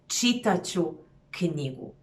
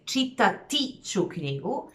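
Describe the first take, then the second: First: The verb drops its -ti ending. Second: The verb keeps its full -ti ending. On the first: "you even lose the T in the pronunciation" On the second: "instead of saying"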